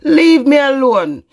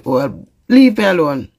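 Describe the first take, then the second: First: "Leave me alone" said higher, louder and slower, pleading hard; loud plea. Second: Said in the usual way. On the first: Real, not acted. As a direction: push "Leave me alone" out loud and slow, begging.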